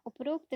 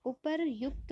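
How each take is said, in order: First: उपरोक्त read as the wrong form upar-okt; the wrong form उपरोक्त, said plainly; wrong spelling. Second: उपरयुक्त slowly and clearly as upar-yukt; correct spelling. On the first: Teacher reading out the wrong spelling उपरोक्त. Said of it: "उपरोक्त नहीं होता है". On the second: Teacher slowly stressing the correct form उपरयुक्त. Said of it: "बल्कि उपरयुक्त होता है". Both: Shown as a demonstration.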